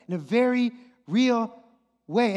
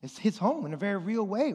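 First: "very" and "real" punched higher, with a pause before "way"; "very real" spaced out and emphatic; stress on VERY REAL. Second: Said in the usual way. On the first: Real, not acted. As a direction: hammer "very" and "real" separately. Repeats it for emphasis.

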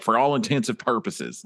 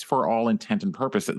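First: "intents and" run together as "intensive"; the common slip, "intents and" blurred into "intensive"; mistaken wording. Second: "intent and purposes" said as separate words; "intent and", not run together as "intensive"; correct wording. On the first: Retold or imitated. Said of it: "when people are like". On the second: Shown as a demonstration. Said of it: "well no, like, it's".

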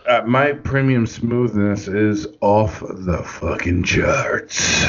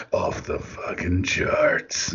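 First: Low, breathy smooth delivery trailing off; smooth announcer voice. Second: Low, slow whispered "Off the fucking charts."; smooth whisper. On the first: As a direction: purr it like a smug smoothie. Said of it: "I don't know why I just said it like that". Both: Shown as a demonstration.

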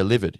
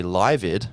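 First: Livid said as "liv-id", short i like in give; correct livid. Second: Livid said as "lie-vid", long i like in lie; mispronounced livid. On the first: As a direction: say livid with a short i, as in "live" the verb. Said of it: "someone corrects you". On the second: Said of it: "you might not realize how to pronounce it". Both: Shown as a demonstration.

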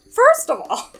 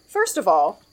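First: Much higher, sassy and laughing. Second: Said in the usual way. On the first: Shown as a demonstration. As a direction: toss it off with attitude. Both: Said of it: "I've gotta do this in some kind of way".

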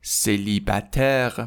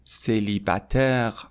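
First: Célibataire whispered slowly; whispered model word. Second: Célibataire voiced, slow, falling; slow model word. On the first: Teacher demonstrating the word for students, whispered. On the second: Teacher repeating the word aloud for students, slow. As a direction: say Célibataire slowly with a falling end. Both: Shown as a demonstration.

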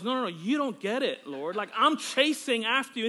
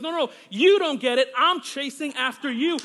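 First: Said in the usual way. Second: The same words much louder and pressed; insist, as God repeating himself; insistent louder reply. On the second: Retold or imitated. Preacher voicing God insisting to him, louder.

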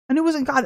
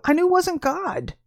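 First: Said in the usual way. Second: "wasn't" leaned on, higher and slow; emphatic. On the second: Real, not acted. She insists to listeners that "wasn't God", emphatic. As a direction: press hard on "wasn't" to drive it home.

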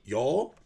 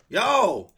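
First: "Y'all" loud with a rising, questioning end; mock questioning attempt. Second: "Y'all" very high and loud, falling; mock emphatic correction. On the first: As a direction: imitate trying out "Y'all" uncertainly. Learner tries corrected word. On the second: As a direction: demonstrate "Y'all" as a forceful one-syllable shout. Teacher demonstrates word loudly.

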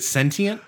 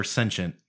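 First: "sentient" in three syllables, T sounded; SEN-tee-ent. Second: "sentient" in two syllables, SEN-shent. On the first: Asking co-host which is right, SEN-tee-ent for "sentient". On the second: Asking co-host which is right, SEN-shent for "sentient". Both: Shown as a demonstration. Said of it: "Is it sentient or sentient?".

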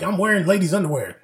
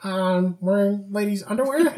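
First: "I'm wearing ladies' underwear" as a raised, falling statement; Donkey's suggestion. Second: "I'm wearing ladies' underwear" high and halting, rising at the end; questioning repeat. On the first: Donkey feeding Pinocchio a lie, "I'm wearing ladies' underwear" stated. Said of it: "Donkey's like". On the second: Pinocchio repeating the suggested lie, "I'm wearing ladies' underwear" questioned. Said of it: "And he's like". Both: Retold or imitated.

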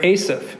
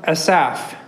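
First: Asaph as AY-suf, first syllable stressed; alternative pronunciation. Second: Asaph said slowly, stress on the second syllable; tentative pronunciation. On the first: Preacher offering another guess at the name, Asaph as AY-suf. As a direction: say Asaph with a long A up front. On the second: Preacher unsure of the psalmist's name, Asaph as slow uh-SAFF. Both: Shown as a demonstration. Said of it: "or Asaph, maybe".

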